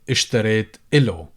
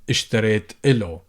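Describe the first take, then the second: No difference in how they are said.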